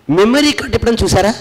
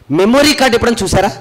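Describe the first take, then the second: No difference in how they are said.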